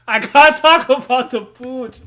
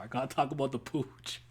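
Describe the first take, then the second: First: Much louder and higher, stretched out slowly; loud slow declaration. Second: Said in the usual way. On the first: Real, not acted. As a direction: announce "talk" slowly and loud like a big reveal. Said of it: "this shit is so fucking funny to me". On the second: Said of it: "I'm so, I'm sorry".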